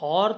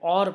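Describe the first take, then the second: First: The word starts with an h sound. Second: The word starts with a vowel sound. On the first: The speaker calls it wrong. "अब हम इसको हॉर तो नहीं पढ़ते" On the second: The speaker calls it right. "और पढ़ते हैं, जिसकी वजह से यहाँ पे एच साइलेंट है"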